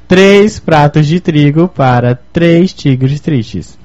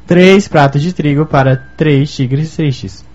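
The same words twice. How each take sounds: First: It is said at a slower pace. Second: It is said at a faster pace.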